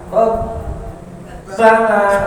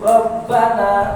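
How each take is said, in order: First: The doubled b is held for a long time. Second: The doubled b is released quickly, not held. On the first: The speaker calls it wrong. "kalau nggak ada ditahan" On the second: The speaker calls it right. "cukup dihentak saja"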